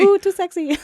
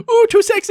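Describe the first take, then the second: First: High, loud seductive coo echo; sultry coo. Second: High, loud seductive coo; sultry ooh. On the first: Echoing the sexy imitation. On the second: Joking sexy imitation. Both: Pretend.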